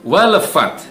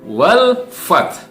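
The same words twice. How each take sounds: First: The 'l' is released with a small bounce. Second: The 'l' is held smoothly without a bounce. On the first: The speaker calls it wrong. "membaca dengan dipantulkan ... bukan wal fath, bukan" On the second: The speaker calls it right. "tapi wal fath"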